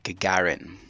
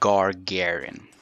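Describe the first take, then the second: First: The first syllable has no R sound. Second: The first syllable has an R sound. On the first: The speaker calls it right. "the proper way of saying it" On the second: The speaker calls it wrong. "He pronounces it Gargarin"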